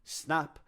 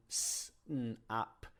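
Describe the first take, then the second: First: Said in the usual way. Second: S, n, ap said apart, slowly; sounding out words. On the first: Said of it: "So nap can become". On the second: Shown as a demonstration. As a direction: sound out s, n, ap one by one. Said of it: "increase the complexity".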